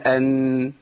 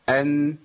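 First: The nasal sound is drawn out longer. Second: The nasal sound is held only briefly. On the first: The speaker calls it wrong. "بنزودها شويه" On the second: The speaker calls it right. "ما تزودش عن كده"

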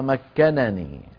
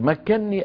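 First: The two n sounds are pronounced separately. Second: The two n sounds merge into one doubled n. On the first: "أصلها مكنني" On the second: "سكنت النون الأولى وأدغمت"

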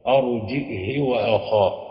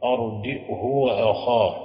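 First: The h takes a short i vowel. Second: The h takes a short u vowel. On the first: "بكسر الهاء مع القص" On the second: "بضم الهاء مع القصر"

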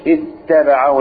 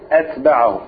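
First: The t sound is doubled, held longer. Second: The t sound is single and short. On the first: He followed and caught up with him. The speaker calls it wrong. "مش اتبعه" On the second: He went after him but did not catch up. The speaker calls it right. "أتبعه مخففا يعني بدون شدة"

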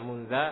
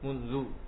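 First: The word ends with an a vowel. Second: The word ends with a u vowel. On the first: The speaker calls it wrong. "Enggak pernah baca munza" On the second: The speaker calls it right. "dia mabni di atas dhammah"

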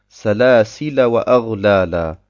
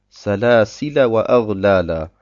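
The two takes are said the same way.

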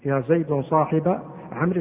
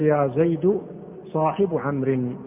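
First: The second word ends with an a vowel. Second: The second word ends with a u vowel. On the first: The speaker calls it right. "لا يجوز فيه إلا النصب" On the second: The speaker calls it wrong. "ما تقول"

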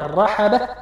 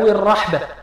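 First: Both the r and the h carry a vowel. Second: The r has a vowel; the h is silent. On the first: "بتحريك الراء والحاء" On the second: "بتحريك الراء وتسكين الحاء"

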